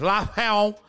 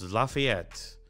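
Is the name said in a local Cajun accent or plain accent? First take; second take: Cajun; plain. First: It is said in an imitated local accent. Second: It is said in the speaker's plain accent.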